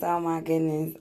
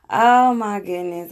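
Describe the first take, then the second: First: Said in the usual way. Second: Amused exclamation. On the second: Real, not acted. Laughing after the clip.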